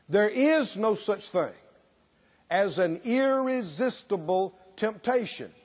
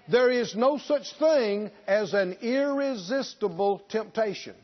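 First: It is said very slowly. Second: It is said at a normal speed.

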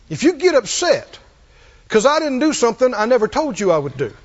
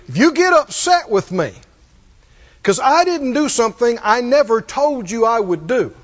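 First: It is said at normal speed. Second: It is said very slowly.

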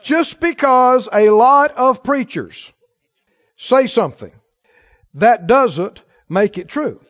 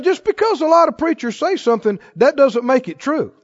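First: It is said very slowly. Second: It is said at a normal pace.

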